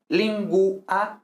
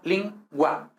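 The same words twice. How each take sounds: First: "lingua" slowly as lin-GU-a; three separated beats in "lingua"; U as separate syllable. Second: "lingua" slowly as LIN-gwa; two beats, "lingua" with a w glide; GUA one syllable. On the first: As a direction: break "lingua" between U and A. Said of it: "no dos sílabas separadas". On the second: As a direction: merge U and A in "lingua". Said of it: "forma una misma sílaba". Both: Shown as a demonstration.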